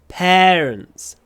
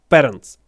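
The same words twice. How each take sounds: First: The first vowel is a long, drawn-out sound. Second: The first vowel is a short e sound. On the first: The speaker calls it right. "Но это parents" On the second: The speaker calls it wrong. "Русскоговорящие всегда, всегда говорят parents. И делает просто короткий э"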